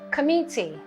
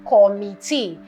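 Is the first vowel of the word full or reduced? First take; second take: reduced; full. First: The first vowel is reduced to a schwa. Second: The first vowel is a full vowel. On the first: The speaker calls it right. "This is a schwa" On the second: The speaker calls it wrong. "or committee"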